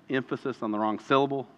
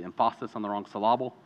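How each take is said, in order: First: Said in the usual way. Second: "emphasis" and "syllable" both stressed on the second syllable; quick "emphasis on the wrong syllable", said em-PHA-sis and sy-LLA-ble; jokingly misplaced stress. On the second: Shown as a demonstration. Joke of misplaced word stress.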